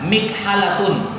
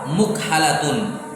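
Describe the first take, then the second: First: The first syllable has the vowel i. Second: The first syllable has the vowel u. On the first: This is the form the rule predicts. "Secara aturan seharusnya apa?" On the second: This is the form actually heard from Arabs.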